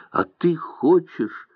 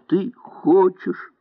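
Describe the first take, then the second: First: Said in the usual way. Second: Higher, slower, trembling. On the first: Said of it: "повторила". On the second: A narrator's reading. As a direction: let the voice quiver on хочешь. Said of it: "повторила дрожащим голосом". (дрожащим голосом, выше и медленнее)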